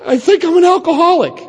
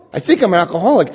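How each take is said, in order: First: Small, much higher voice, a bit louder; hesitant high-pitched admission; timid confession. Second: Said in the usual way. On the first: Retold or imitated. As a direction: squeak it out like a scared kid. Confessing on the helpline phone.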